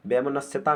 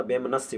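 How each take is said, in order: First: वैमनस्यता with an added final "taa"; wrong extra syllable. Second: वैमनस्य ending on "sya", no "taa"; correct form. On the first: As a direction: tack ता onto the end of वैमनस्यता. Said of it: "वैमनस्यता नहीं होता". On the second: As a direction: stop वैमनस्य cleanly at स्य. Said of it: "वैमनस्य होता है". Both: Shown as a demonstration.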